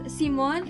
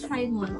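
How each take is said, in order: First: The name is said with German pronunciation. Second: The name is said with English pronunciation. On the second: "and in English"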